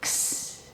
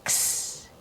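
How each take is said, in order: First: It is said as a 'ks' sound. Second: The same.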